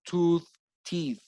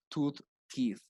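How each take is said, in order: First: Slow, over-careful "Tooth, teeth" with a hard th; exaggerated teeth. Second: Said in the usual way. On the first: Shown as a demonstration. Teacher to Spanish-speaking students, exaggerating "teeth". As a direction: stretch "teeth" so every sound lands. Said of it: "sometimes I exaggerate it". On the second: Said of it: "I emphasize on the pronunciation".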